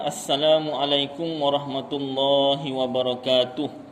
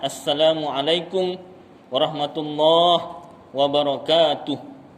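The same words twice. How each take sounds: First: It is said in one breath without pausing. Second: There is a breath pause between two words. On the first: "kalau panjang nafas" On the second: "Tak panjang nafas"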